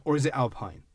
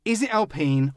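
First: Alpine said as "AL-pine"; Al-PINE pronunciation. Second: Alpine said as "al-PEEN"; Al-PEEN pronunciation. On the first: Host offers his own version, Alpine said AL-pine. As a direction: say "Alpine" to rhyme with mine. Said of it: "might be allowed to say Alpine". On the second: Host asks which name is correct, Alpine said al-PEEN. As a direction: say "Alpine" with an ee in the last syllable. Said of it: "you do know it's Alpine". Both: Shown as a demonstration.

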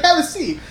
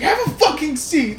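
First: Firm offer, raised pitch; "Have a seat." urged a bit higher; insistent "Have a seat." said higher, pressing. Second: "Have a fucking seat." barked high in a changed voice; "Have a fucking seat." snapped up high, losing patience; "Have a fucking seat." as daughter loses it with her mom; mock exasperated order. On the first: Retold or imitated. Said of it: "It's like". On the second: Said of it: "And then it's like".

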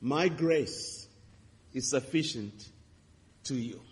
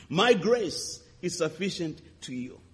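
First: Soft, fading reassurance; gentle voice of God. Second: Slow, deliberate scripture line; emphatic. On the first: Retold or imitated. God answering the grieving preacher, gently. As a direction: speak it like a tender promise. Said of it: "he said to me". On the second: Shown as a demonstration. Preacher repeating the verse to the congregation, slow and emphatic. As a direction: lay out each word slowly. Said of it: "Second Corinthians twelve verse nine".

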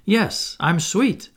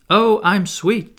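First: Pleased with himself. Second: "Oh, I'm sweet" drawn out slow and louder, higher; smug. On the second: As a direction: savour the compliment, slowly and proudly. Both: A narrator's reading. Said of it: "forgetting his manners again".

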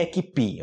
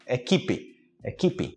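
First: "equipe" stressed on the last syllable, "e-kee-PEE"; wrong final stress. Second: "equipe" stressed on KI, "e-KEE-pee"; correct middle stress. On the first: Teacher warning learners of a mistake, "equipe" stressed on the end. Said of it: "Cuidado que não é equipe". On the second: Teacher correcting the mistake, "equipe" with stressed middle syllable. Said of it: "Não é equipe". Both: Shown as a demonstration.

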